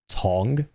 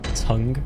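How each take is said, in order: First: It is said with a Yorkshire vowel, like tong. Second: It is said with the common vowel, like tung. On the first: The speaker is from Yorkshire. "I'm from Yorkshire. Pronounced tongue as tong" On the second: Most people say it this way. "most pronounce it tongue"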